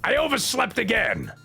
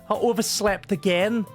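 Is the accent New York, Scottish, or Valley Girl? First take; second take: New York; Scottish. First: It is said in a raspy New York accent. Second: It is said in a Scottish accent.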